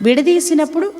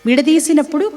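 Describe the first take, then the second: No difference in how they are said.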